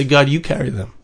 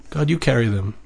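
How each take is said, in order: First: Said in the usual way. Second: Quiet. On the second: Acted. Prayer voiced, then softly echoed.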